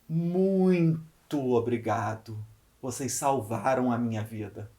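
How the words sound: The stress is on "muito".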